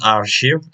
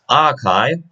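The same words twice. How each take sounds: First: The word is said with an R sound. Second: The word is said without an R sound. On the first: The speaker calls it wrong. "It is not archive" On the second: The speaker calls it right. "there is no R sound"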